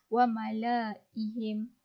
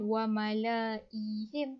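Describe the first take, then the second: First: The vowel before the h is kept short. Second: The vowel before the h is drawn out long. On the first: The speaker calls it right. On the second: The speaker calls it wrong.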